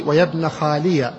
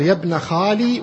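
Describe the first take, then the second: First: خالي ends in an open ya with fatha, khaliya. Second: خالي ends on a long i with no vowel after, khali; silent final ya. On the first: (خالي بياء مفتوحة، خاليَ) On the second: (خالي بياء ساكنة في آخرها) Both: Shown as a demonstration. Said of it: "ليس لك فيه إلا وجهان".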